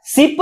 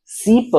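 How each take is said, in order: First: सिप with a quick short i. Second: सीप with the ee held long. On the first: Teacher contrasting ship with sheep, short i. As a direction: say सिप fast, the i barely held. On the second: Teacher contrasting sheep with ship, long ee. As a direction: stretch the ee in सीप. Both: Shown as a demonstration. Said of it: "दोनों में अंतर है".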